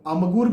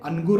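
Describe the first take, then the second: First: The nasal before g is an m sound. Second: The nasal before g is an n sound. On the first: "अमगुर भी नहीं कहते" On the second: "अनगुर नहीं कहते"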